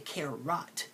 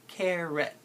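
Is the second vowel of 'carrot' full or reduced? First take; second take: full; reduced. First: The second syllable has a full O vowel. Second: The second syllable has a reduced schwa vowel. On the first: The speaker calls it wrong. "notice I don't say carrot" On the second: The speaker calls it right. "You say carrot"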